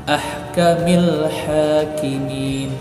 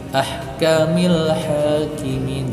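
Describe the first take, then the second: First: The L sound is clearly pronounced. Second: The same.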